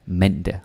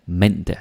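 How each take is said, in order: The two takes are said the same way.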